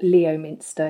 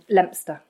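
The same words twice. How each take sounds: First: The name is said the way it's spelt. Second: The name is not said the way it's spelt.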